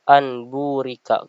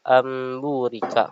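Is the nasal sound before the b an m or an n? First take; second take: n; m. First: The n is said plainly before the b. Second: The n turns into a held, nasal m. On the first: The speaker calls it wrong. "Cara membacanya itu bukan anburika" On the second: The speaker calls it right. "Tapi yang benar adalah amburika"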